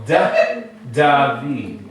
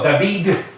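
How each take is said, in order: First: Drawn-out "da", then David with a light D; soft final D. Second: David with a loud, punched D at the end; hard final D. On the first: Teacher shows students the right way, soft D on David. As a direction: ease off the last D of David, nearly "th". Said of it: "You go da, David". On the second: Teacher shows students the wrong way, hard D on David. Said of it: "You don't go David". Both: Shown as a demonstration.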